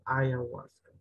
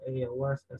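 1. La primera sílaba suena como 'eye'. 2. La primera sílaba suena como 'ay'. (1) "sino que ayahuasca" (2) "no la van a pronunciar como ayahuasca"

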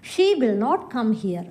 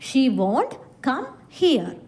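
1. 'will not' എന്ന വാക്കുകൾ പൂർണ്ണമായി പറയുന്നു. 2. 'will not' എന്ന വാക്കുകൾ 'won't' ആയി ചുരുക്കി പറയുന്നു.

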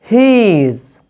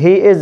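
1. تُقال كمقطع واحد مختصر. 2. تُقال كلمتين منفصلتين.

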